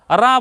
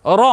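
First: "রা" with open aa; wrong open vowel. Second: "র" with rounded o; correct rounded vowel. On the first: Teacher showing what we don't say in names, open "রা". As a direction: say "রা" as raa. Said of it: "বলি না". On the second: Teacher answering what we say instead, rounded "র". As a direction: say "র" as a full ro. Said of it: "আমরা বলি কি?". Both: Shown as a demonstration.

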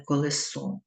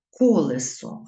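First: "колесо" stressed at the end, ko-le-SO; wrong stress on last syllable. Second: "Колесо" stressed at the start, KO-le-so; loud opening KO in "Колесо"; correct stress on first syllable. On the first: Teacher citing the mistake to avoid, final-syllable stress on "колесо". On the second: Teacher showing pupils the correct form, first-syllable stress on "Колесо". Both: Shown as a demonstration. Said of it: "а не колесо".

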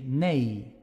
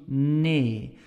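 First: "nee" rounded, gliding to ei; Dutch nee. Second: "nee" as a flat pure e; Flemish nee. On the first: Teacher demos the Netherlands nee. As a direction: round and glide the vowel. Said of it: "a little bit more rounded". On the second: Teacher demos the Belgian nee. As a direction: keep the vowel flat. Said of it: "in Belgium, we will say". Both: Shown as a demonstration.

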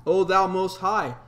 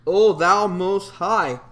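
First: Said in the usual way. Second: "O thou most high" drawn out slow and louder, each word weighted; slow, louder, reverent proclamation; slow solemn emphasis. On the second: Shown as a demonstration. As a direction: intone "O thou most high" slowly and grandly, like a hymn line. Scripture verse read, then repeated.

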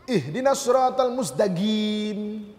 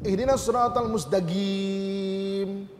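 First: Yemeni Arabic accent, mustaqim ending in a hard G. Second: Yemeni Arabic accent, slowly recited, Qaf said as Ga. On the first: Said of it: "huruf Qaf jadi huruf Ga". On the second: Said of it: "qaf tu jadi ga". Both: Shown as a demonstration.

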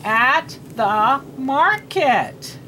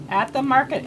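First: "at the market" one word at a time; very slow, spaced-out "at the market"; slow read-aloud. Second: Said in the usual way. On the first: Shown as a demonstration. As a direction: read "at the market" slowly, separating each word. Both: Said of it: "we're gonna read".

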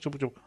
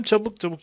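First: Said in the usual way. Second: Urgent. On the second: Real, not acted. Urgent hurrying.

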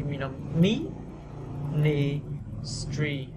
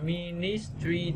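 First: "ministry" very slow, syllable by syllable; drawn-out S. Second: "ministry" evenly weighted, run together; mistaken even stress. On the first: Teacher modelling, "ministry" slow with a long S. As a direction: split "ministry" and stretch its S. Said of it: "cố tình kéo dài chữ S". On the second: Teacher showing what to avoid, "ministry" evenly stressed. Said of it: "thay vì đọc ministry". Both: Shown as a demonstration.

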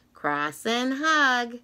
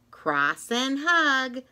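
No difference in how they are said.

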